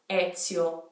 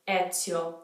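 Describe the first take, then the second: First: The middle consonant is a ts sound. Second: The middle consonant is a ts sound.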